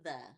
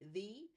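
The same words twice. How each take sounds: First: The vowel is a short uh sound. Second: The vowel is a long ee sound. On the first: It is how people normally speak. The speaker calls it right. "we know that when we speak, we say the" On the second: It follows the spelling rule like 'he'. The speaker calls it wrong. "It would maybe be he, the, and some of them people say that"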